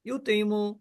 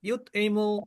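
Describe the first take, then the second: Both takes have the same delivery.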